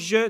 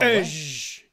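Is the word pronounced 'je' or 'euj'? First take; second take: je; euj. First: The word is said with the consonant first. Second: The word is said with the vowel first. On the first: "« je » devient" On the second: "devient « euj »"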